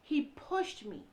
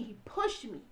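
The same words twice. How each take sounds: First: "He pushed me" said very slowly, each word set apart; slow, weighted statement. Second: Said in the usual way. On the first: Real, not acted. Telling listeners plainly what her husband did, slowly and gravely. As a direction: lay each word down so nobody can miss it. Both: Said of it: "Let me be clear".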